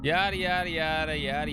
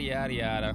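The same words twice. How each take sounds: First: High, odd cartoon voice; sing-song silly alien voice; Conehead voice. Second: Said in the usual way. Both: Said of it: "the Conehead voice again".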